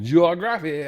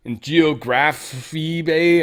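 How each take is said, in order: First: "Geography" with an Australian accent; "Geography" given an Aussie twist; Australian accent try. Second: "Geography" spelled out slowly, syllable by syllable; "Geography Bay" read slowly and haltingly; slow careful reading. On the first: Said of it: "how you guys would say that with your, even your accent". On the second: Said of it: "how you guys would say that". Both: Shown as a demonstration.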